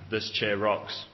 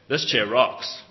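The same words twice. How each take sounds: First: It is said as a plain, matter-of-fact statement. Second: It is said in a cool, enthusiastic way.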